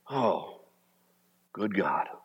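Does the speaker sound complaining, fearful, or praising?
praising. It sounds like grateful, worshipful praise. The speaker trusts that God is good. The speaker calls it right. "You are good. And you are in control"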